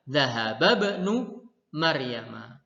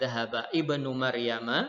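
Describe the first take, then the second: First: The initial vowel of ibnu is dropped and linked. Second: The initial vowel of ibnu is pronounced separately. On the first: The speaker calls it right. "tetapi kita bacanya adalah Zahaba banu Maryam" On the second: The speaker calls it wrong. "bukan zahaba ibnu Maryam"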